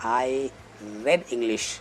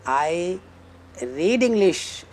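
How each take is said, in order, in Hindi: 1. शब्द 'read' में छोटी 'e' वाली स्वर-ध्वनि है। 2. शब्द 'read' में लंबी 'ee' वाली स्वर-ध्वनि है। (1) "आप ये बोलोगे" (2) "ये बोलने की बजाय कि"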